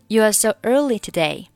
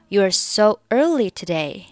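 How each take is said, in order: No difference in how they are said.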